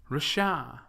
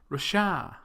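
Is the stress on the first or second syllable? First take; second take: second; second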